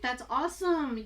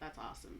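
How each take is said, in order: First: It is said with genuine, enthusiastic intonation. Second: It is said flatly, with sarcastic intonation. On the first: The speaker really thinks it is awesome. "if something is really awesome" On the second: The speaker does not really think it is awesome. "That's sarcasm"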